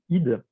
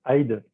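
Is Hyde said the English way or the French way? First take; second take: French way; English way. First: Hyde is said the French way, like hideux. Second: Hyde is said the English way, like hide. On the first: It calls up the hydra and the word for hideous. "sans avoir entendu le prononcer, pour moi, c'était Madame Hyde" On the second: It calls up the English word for hiding. "lorsque toi tu m'as dit hide"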